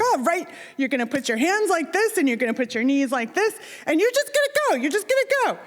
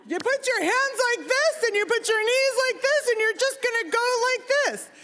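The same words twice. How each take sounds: First: Higher-pitched hyped-up coaching, imitated; hyped dad. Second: High-pitched insistent dad, no real volume; strained high voice, spelling out each step; imitated louder repeat. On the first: Dad coaching a nervous child to dive, hyped. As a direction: imitate an eager dad giving diving instructions. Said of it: "he's all, you know, hyped". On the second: Dad repeating diving steps to a child who failed, insistent. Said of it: "maybe I didn't say it loud enough".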